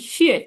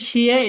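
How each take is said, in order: First: The syllable is said with the fourth tone. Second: The syllable is said with the first tone. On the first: It means thanks. "চার নম্বর টোন শিয়ে" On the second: It means some. "প্রথম টোন হচ্ছে শিয়া"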